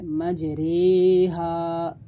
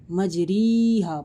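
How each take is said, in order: First: मजरेहा slowly recited with a long drawn-out रे; Quran recitation with imala. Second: मजरीहा said plainly with री instead of रे; wrong reading. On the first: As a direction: chant मजरेहा stretched out, the रा said as रे. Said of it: "मजरीहा नहीं पढ़ना बल्कि मजरेहा". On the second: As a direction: say मजरीहा the mistaken way, ri not re. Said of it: "मजरीहा नहीं पढ़ना". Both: Shown as a demonstration.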